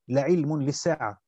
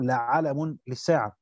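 First: The first word has i then no vowel: 'ilm. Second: The first word has a after both consonants: 'alam. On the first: His coming is knowledge of the Hour. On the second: His coming is a sign of the Hour.

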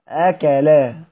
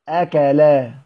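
The two takes are said the same way.

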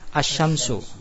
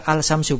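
First: The L merges into a doubled sh sound. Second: The L sound is clearly heard before sh. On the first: The speaker calls it right. "tapi bacanya apa? Asy-syamsu. ... lamnya tidak dibaca" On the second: The speaker calls it wrong. "benar apa salah? Salah"

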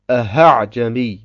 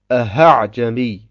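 First: The second hamza is turned into an h. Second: The second hamza is turned into an h.

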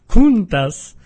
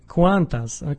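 First: The first syllable is said as "kun". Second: The first syllable is said as "kuan". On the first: The speaker calls it wrong. "Przepraszam bardzo" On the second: The speaker calls it right.

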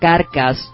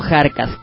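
First: The name begins with a hard k sound. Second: The name begins with a raspy h sound. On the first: The speaker calls it right. "es el nombre correcto, la pronunciación correcta" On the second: The speaker calls it wrong. "no Jarcas"

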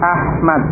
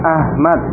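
First: The h is a tense, raspy throat sound. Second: The h is a light, plain breathy h. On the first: The speaker calls it right. "tapi Ahmad, ya, dengan ha" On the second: The speaker calls it wrong. "bukan Ahmad"

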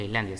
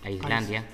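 First: The word begins with an 'ees' sound. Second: The word begins with an 'ice' sound. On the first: The speaker calls it wrong. "que no se pronuncia Islandia" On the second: The speaker calls it right. "sino Islandia. Ice por el país del hielo"

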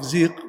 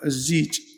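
First: The word ends with a q sound. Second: The word ends with a j sound. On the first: This is the standard pronunciation with qaf. "هي بالقاف زيق" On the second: This is the local colloquial pronunciation. "احنا في العامة يقولون الزيج"

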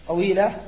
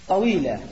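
Both takes have the same delivery.

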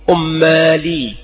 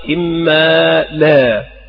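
First: It starts with u; the last vowel leans toward ee. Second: It starts with i; the last vowel is plain ah. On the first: It is the common people's form. The speaker calls it wrong. "والعامة تقول أيضا أمالي، فيضمون الألف وهو خطأ أيضا" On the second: It is the correct form. The speaker calls it right. "والصواب إما لا غير ممال"

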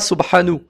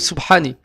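First: The word ends with an u vowel. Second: The word ends with an i vowel. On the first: "On ne dira pas Subhanu" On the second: "ou Subhani, avec la kasra"

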